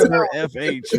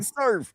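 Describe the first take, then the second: First: The name is said as Sir plus letters. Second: The name is said as one word, surf. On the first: The speaker calls it right. "nah, it's Sir F H" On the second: The speaker calls it wrong. "some people pronounce it as surf"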